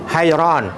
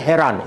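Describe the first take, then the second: First: The first vowel is an ai diphthong. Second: The first vowel is a plain e sound. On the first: The speaker calls it right. "ini bacaan betul" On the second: The speaker calls it wrong. "Yang salahnya heran. Itu salah bacaan tu"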